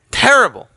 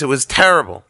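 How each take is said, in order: First: "Terrible" pitched high with a falling end; emphatic repeat. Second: Said in the usual way. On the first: Real, not acted. Storyteller repeating his verdict on the slice, "Terrible" stressed high and falling. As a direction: hit "Terrible" high, then let it fall.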